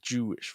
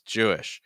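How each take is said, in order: First: The word sounds tight and closed off. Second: The word sounds open with more breath. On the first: The speaker calls it wrong. "that does feel a little closed off to me" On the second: The speaker calls it right. "it could be more open there in terms of breath"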